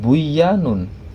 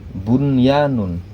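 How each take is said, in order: First: The n sound is merged into the following y. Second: The n sound is pronounced clearly before the y. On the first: The speaker calls it wrong. "dibacanya bukan buyanun" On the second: The speaker calls it right. "tetapi tetap bunyanun. Nunnya menjadi dibaca jelas"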